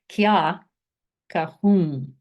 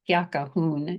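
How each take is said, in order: First: The last word ends with a nasalized vowel. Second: The last word ends with a full n sound. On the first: The speaker calls it right. "There's a nasalized in at the end" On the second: The speaker calls it wrong. "It's not kya kahun"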